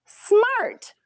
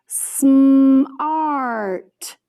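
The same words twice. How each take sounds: First: Said in the usual way. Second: "smart" drawn out long and a little louder; stretched blend. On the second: Shown as a demonstration. Teacher blending sounds into a word for students, stretched out. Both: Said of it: "practice blending it by saying the sounds".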